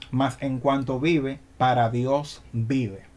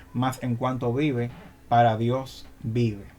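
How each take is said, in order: The two takes are said the same way.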